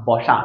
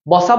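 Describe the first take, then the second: First: বসা said "bosha"; palatal sh. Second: বসা said "bosa", with a plain s; dental s, wrong way. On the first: Teacher correcting the pupils' example, palatal sh. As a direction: make the middle of বসা a soft sh. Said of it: "সেক্ষেত্রে এটা তালব্য স হয়ে যাবে". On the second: Teacher asking pupils before rejecting it, dental s. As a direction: put an English S in the middle of বসা. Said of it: "না". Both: Shown as a demonstration.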